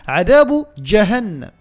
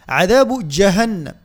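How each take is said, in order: Both takes have the same delivery.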